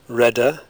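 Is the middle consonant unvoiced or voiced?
voiced. The middle consonant is short and voiced. "Medial lean explosives are usually fully voiced in RP English"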